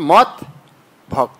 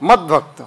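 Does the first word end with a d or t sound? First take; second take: t sound; d sound. First: The words are separated, the first ending in t. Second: The words are joined, the first ending in d. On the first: "আলাদা করে যদি বলে" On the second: "ত বলে দাঁড়ানো যাবে না, তখন তটা কি হয়ে যায়? দ হয়ে যায়"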